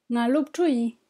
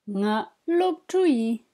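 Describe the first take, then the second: First: Said in the usual way. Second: Slow, careful "Nga lopchui", each syllable drawn out; slow model. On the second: Shown as a demonstration. Teacher models a phrase for students, slow and careful. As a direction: lay out "Nga lopchui" slowly for learners. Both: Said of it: "Une phrase qui vous sera certainement utile".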